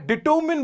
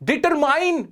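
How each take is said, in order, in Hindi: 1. आखिरी अक्षर 'min' जैसा सुनाई देता है। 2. आखिरी अक्षर 'mine' जैसा सुनाई देता है। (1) "डिटर्मिन बोला मैंने" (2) "डिटरमाइन की जगह"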